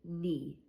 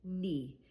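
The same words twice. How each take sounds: The two takes are said the same way.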